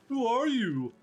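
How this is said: It is said in a mocking, obnoxious voice.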